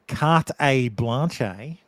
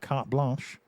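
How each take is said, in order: First: An extra syllable comes between the two words. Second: The two words are joined directly.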